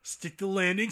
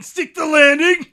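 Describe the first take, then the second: First: Said in the usual way. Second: Much louder and higher urging; mock coach's yell. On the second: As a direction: yell it like a gymnastics spectator.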